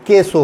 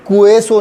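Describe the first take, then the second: First: "केसो" with k going straight into e; silent U. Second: "कुएसो" with an audible u glide after k; U pronounced. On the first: Teacher correcting the QUE reading, silent U. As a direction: drop the u, plain ke in "केसो". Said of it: "बल्कि केसो हो जाएगा". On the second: Teacher showing the reading to avoid, U pronounced. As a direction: say ku-e at the start of "कुएसो". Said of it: "नहीं होगा". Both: Shown as a demonstration.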